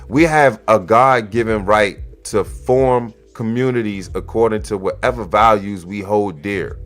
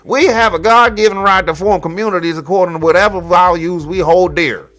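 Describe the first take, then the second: First: It is read in a plain voice. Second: It is read in a put-on voice. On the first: The speaker calls it wrong. "hold up, let me let me run this back" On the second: The speaker calls it right. "let me do this voice correctly"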